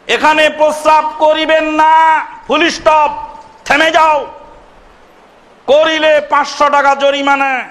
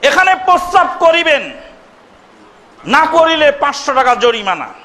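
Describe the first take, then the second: First: The pause comes after 'na'. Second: The pause comes before 'na'.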